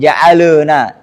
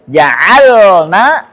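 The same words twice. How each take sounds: First: An extra vowel sound follows the l. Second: The l is closed with no extra vowel. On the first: The speaker calls it wrong. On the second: The speaker calls it right.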